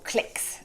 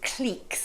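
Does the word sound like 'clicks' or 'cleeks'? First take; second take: clicks; cleeks. First: The word is said with a short 'i' vowel. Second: The word is said with a long 'ee' vowel.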